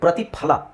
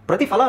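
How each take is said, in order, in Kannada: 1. ಮಧ್ಯದ ವ್ಯಂಜನ aspirated p ಶಬ್ದ. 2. ಮಧ್ಯದ ವ್ಯಂಜನ ಇಂಗ್ಲಿಷ್ ತರದ f ಶಬ್ದ.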